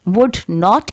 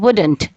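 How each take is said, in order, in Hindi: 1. दोनों शब्द पूरे और अलग-अलग बोले जाते हैं। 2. शब्द एक स्वर छोड़कर आपस में जुड़ जाते हैं। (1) "की जगह" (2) "वो आवाज़ उन हर्फ की हटा देते हैं"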